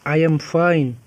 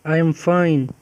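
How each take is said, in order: Both takes have the same delivery.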